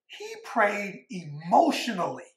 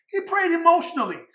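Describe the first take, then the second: First: Said in the usual way. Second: Higher, stress on "prayed"; emphatic repeat. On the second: Shown as a demonstration. Preacher repeating the second point to the church, stressing "prayed". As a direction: hit "prayed" high and firm.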